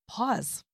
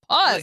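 First: It is said calmly, without force. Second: It is said loudly and forcefully.

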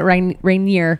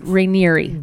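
First: The name ends without a final 'ee' syllable. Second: The name ends with a final 'ee' syllable. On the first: The speaker calls it wrong. "hating that we were pronouncing it Rainier" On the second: The speaker calls it right. "it's Rainieri"

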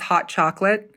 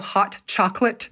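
First: The T sound is dropped. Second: The T sound is clearly pronounced.

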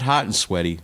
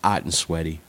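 First: The first word begins with an audible h. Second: The first word begins without an h. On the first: The speaker calls it wrong. "Not Hot and Sweaty" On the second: The speaker calls it right. "They're English. It's Ott and Sweaty"

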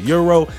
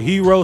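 First: The word starts with a y sound, like euro. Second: The word starts with an h sound, like hero. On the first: "some of y'all pronounce it euro" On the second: "some of y'all pronounce it hero"

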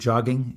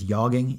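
First: The word begins with a hard J sound. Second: The word begins with a soft J sound. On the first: The speaker calls it wrong. "If you pronounce it jogging, you're wrong" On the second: The speaker calls it right. "That's a soft J, much like jogging"

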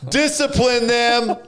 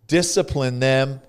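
First: It is said noticeably louder and more forcefully. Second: It is said at ordinary speaking volume.

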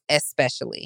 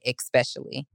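First: The word begins with an 'es' sound. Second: The word begins with an 'ex' sound. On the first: The speaker calls it right. "It's especially" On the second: The speaker calls it wrong. "you'll never hear me say especially"

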